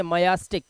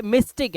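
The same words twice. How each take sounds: First: मयास्टिक with a full ya after m; wrong reading. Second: मिस्टिक with a short i after m; right reading. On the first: Teacher showing students the wrong reading मयास्टिक, a full ya. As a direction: sound out the mistake मयास्टिक, ma-ya. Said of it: "मयास्टिक नहीं". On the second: Teacher correcting students to मिस्टिक, a short mis. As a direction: say मिस्टिक crisply as mis-tik. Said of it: "ये मिस्टिक है". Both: Shown as a demonstration.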